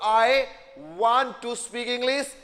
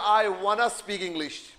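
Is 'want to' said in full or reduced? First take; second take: full; reduced. First: The words 'want to' are said in full. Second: The words 'want to' blend into 'wanna'.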